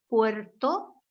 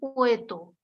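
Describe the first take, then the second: First: The r sound before the t is pronounced. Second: The r sound before the t is left out. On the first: The speaker calls it right. "que es la palabra original" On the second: The speaker calls it wrong. "Ahí omite ese fonema"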